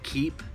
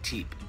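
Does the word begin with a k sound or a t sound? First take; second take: k sound; t sound. First: The word begins with a k sound. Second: The word begins with a t sound. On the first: "Instead of saying keep, K-E-E-P" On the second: "I say teep, T-E-E-P"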